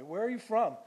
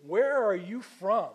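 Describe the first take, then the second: First: Higher, louder pointed demand; pointed question. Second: Loud, slow, exasperated parent asking; exasperated demand. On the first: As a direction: snap the question at him. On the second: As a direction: demand it like a fed-up parent to a teenager. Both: Acted. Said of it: "Have you ever said that to your teenager?".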